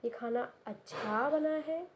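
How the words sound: It is said warmly, sounding genuinely pleased. The food is sincerely thought to be good. "यहाँ पे लग रहा है कि आप सच में आप ऐसा बोल रहे हो कि अच्छा बना है।"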